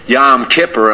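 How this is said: It is said with an American Yiddish pronunciation. This is how Yiddish speakers say it. The speaker calls it wrong. "So they say Yom Kippur"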